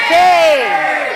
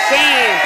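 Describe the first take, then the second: First: Full shout of shame, higher and louder still. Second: Loud, higher chanted shame; chanted, call out shame to the room. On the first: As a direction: yell it at the top of your lungs. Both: Real, not acted. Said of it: "I want them to yell and sell shame".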